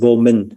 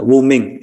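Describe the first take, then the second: First: The term is given its Vietnamese pronunciation. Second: The term is given its Chinese pronunciation. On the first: "In Vietnamese, we use that same phrase, but we pronounce it vô minh" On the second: "in uh, Chinese"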